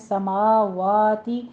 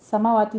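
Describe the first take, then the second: First: The vowel after the 'w' is held long. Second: The vowel after the 'w' is short. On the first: The speaker calls it right. "फतह कामा है, टू टू count कीजिए" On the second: The speaker calls it wrong. "समावाती नहीं है"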